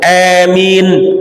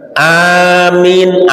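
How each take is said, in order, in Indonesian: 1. Vokal pertama dibaca pendek. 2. Vokal pertama dipanjangkan. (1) "atau hanya pendek" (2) "amin ane dipanjangi satu alif"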